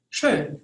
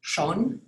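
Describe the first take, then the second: First: Schön with a rounded front ö; umlaut ö. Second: Schon with a plain back o. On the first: Teacher contrasting o and ö, front rounded ö. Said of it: "is pronounced schön". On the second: Teacher contrasting o and ö, plain back o. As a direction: say Schon with an open o. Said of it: "is pronounced". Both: Shown as a demonstration.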